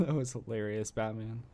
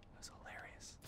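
First: Laughing. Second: Unvoiced whispered repeat; hushed whisper. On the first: Real, not acted. Laughing at Batman's move. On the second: Shown as a demonstration. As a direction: breathe it out as a whisper. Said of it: "repeats the line as a whisper".

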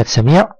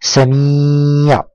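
First: Said in the usual way. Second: سميع with the ī held long on a level note; long drawn-out vowel. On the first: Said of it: "انظر إلى كلمة سميع". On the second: Shown as a demonstration. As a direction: stretch the ي in سميع for the pupil to repeat. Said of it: "قل معي". (مدّ الياء طويلًا في «سميع»)

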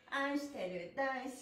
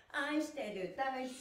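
The two takes are said the same way.

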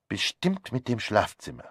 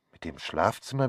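First: Said in the usual way. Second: "Mit dem Schlafzimmer" fragend, mit steigendem Ende auf "Schlafzimmer"; nachdenkliches Wiederholen. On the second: Acted. (nachdenklich fragend wiederholt) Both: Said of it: "wiederholte ich".

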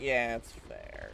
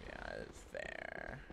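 First: Slow, drawn-out concession; lightly put-on lazy agreement; silly put-on voice. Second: Very low, soft, slow concession; drawn-out low muttered agreement; silly put-on voice. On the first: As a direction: concede it slowly in a lightly goofy voice. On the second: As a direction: sink to a deep, quiet goofy voice. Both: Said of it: "I don't know what voice this is".

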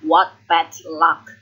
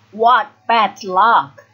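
First: Said in the usual way. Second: Loud, slow, cross exclamation; frustrated, heavily spaced words; angry. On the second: A narrator's reading. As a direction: spit out each word slowly in anger. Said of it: "he says angrily".

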